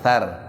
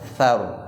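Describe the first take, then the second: First: The r sound is thin and light. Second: The r sound is thick and heavy. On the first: The speaker calls it wrong. "bukan thar. Ya. Jadi bukan tipis" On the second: The speaker calls it right. "seharusnya kalau dia posisi ini harus tebal"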